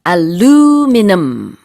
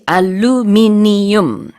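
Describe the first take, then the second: First: Four syllables, with the stress near the front. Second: Five syllables, with the stress on the middle. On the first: "미국에서는요. ... 강세도 앞에 들어가고요" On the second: "영국에서는 우리랑 똑같이"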